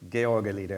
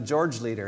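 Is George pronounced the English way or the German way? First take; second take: German; English. First: George is pronounced as the German name. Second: George is pronounced as the English name. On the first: The speaker calls it right. "that's just German, right?" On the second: The speaker calls it wrong. "I won't make that mistake"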